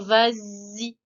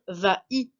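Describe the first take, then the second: First: A z sound links the two words. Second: The words are said without a linking z sound. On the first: The speaker calls it right. "on va dire vas-y. Donc il nous faut bien un S pour faire cette liaison" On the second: The speaker calls it wrong. "on ne va pas dire va-y"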